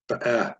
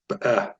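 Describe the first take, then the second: First: The first short vowel is barely pronounced. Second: The first short vowel is barely pronounced.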